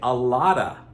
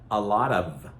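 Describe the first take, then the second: First: The words run together with a soft flapped T. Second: Each word is said separately and fully. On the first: "but we say a lotta" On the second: "Some people will also say a lot of"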